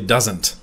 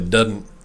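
First: The word is said with a z sound, doesn't. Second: The word is said with a d sound, dudn't. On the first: "Normal people or non-Southern people say doesn't" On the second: "Southern people say Dudn't"

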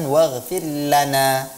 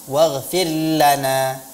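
The two takes are said the same way.

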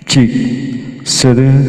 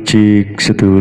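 First: The voice has a hall reverb tail added. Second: The voice sounds dry with no added reverb. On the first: "ini di hall 1 ya" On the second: "ini polos ya"

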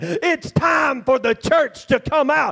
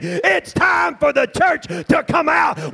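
First: The sentence is said at normal volume. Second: The sentence is said at loud volume.

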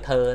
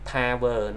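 First: It is squeezed into a single syllable. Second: It is said as two full syllables. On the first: The speaker calls it wrong. "người bản xứ thường nói là thơ" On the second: The speaker calls it right. "nó hai âm tiết trong đó"

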